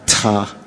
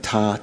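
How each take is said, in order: First: The t has a strong puff of breath. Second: The t is plain, with little breath.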